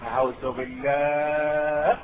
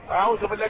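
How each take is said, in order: First: Much lower, very slow horrified refuge-seeking, أعوذ بالله stretched long; drawn-out disapproval. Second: Said in the usual way. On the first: Real, not acted. Preacher recoils, slow and low. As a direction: drag out أعوذ بالله in dismay.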